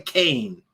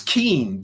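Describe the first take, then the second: First: The vowel sounds like the one in 'cane'. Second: The vowel sounds like the one in 'keen'. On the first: It is the way the name's owner wants it said. "she wants people to say Kane" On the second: It is read the way the spelling suggests. "The lady spells her name K E A N. That's Keen to me"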